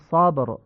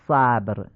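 First: The first vowel is open and back, like short aa. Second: The first vowel is fronted, like Persian short a. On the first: The speaker calls it right. "میگیم" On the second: The speaker calls it wrong. "نمیگیم"

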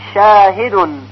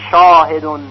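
First: The long a is light and thin. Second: The long a is heavy and full. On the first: The speaker calls it right. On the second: The speaker calls it wrong.

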